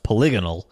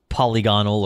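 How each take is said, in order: First: The stress is on the second syllable. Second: The stress is on the first syllable.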